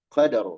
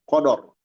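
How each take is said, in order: First: The vowels are pronounced as a. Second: The vowels are pronounced as o. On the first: The speaker calls it right. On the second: The speaker calls it wrong.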